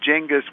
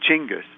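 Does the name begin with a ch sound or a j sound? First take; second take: j; ch. First: The name begins with a j sound. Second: The name begins with a ch sound. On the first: This is the familiar English form. "Genghis with this kind of just sound is just close enough" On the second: This is the original Mongolian form. "in Mongolian, it really should be even C-H"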